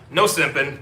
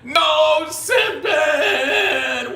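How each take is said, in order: First: It is said in a plain, serious way. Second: It is said in an overly dramatic way.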